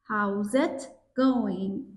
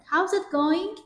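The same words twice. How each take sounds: First: Slow careful take. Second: "going" run together with the g barely sounded, higher and quicker; dropped g. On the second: Teacher showing students the relaxed everyday version. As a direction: say "How's it going?" casually without the hard g. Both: Shown as a demonstration. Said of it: "این گ رو نمیخواد تلفظ بکنید".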